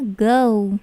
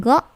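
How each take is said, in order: First: "go" drawn out as "goh-oo"; long diphthong in "go"; English OU glide. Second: "go" short, like "gaw" cut off; stubby monophthong "go"; wrong pure O. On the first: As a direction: say "go" with the vowel gliding to "oo". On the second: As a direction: say "go" with no glide in the vowel. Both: Shown as a demonstration. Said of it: "bukan go".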